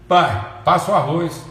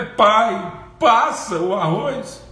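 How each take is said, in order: First: It is said in an arrogant tone. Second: It is said as a desperate plea.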